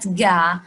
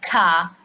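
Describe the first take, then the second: First: It starts with a voiced g sound. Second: It starts with a plain front k sound. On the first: "not ga" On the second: "not ka"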